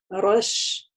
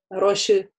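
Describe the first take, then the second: First: The final sh sound is held a little. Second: A vowel is added after the sh sound. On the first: The speaker calls it right. "звук «щин» с сукуном как бы тянется немножко" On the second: The speaker calls it wrong. "мы не говорим «роши»"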